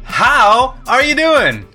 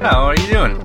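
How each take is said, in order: First: It is said with full, big energy. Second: It is said with little energy.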